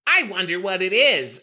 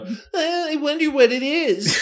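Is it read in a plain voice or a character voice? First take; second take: plain voice; character voice. First: It is read in a plain reading voice. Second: It is read in a put-on Tails voice.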